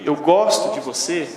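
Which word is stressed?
gosto. The word gosto carries the emphasis. It highlights the feeling of liking itself. "Eu gosto, é uma coisa"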